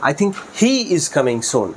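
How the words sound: The word he gets the stress. This particular person, among many, is coming. "হি এর উপর stress দেই"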